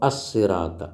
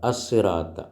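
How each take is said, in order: Both takes have the same delivery.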